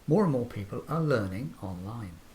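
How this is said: The pitch rises then falls at the end. The speaker is confident and sure. The speaker calls it right. "we're confident and we're sure of the information we're giving"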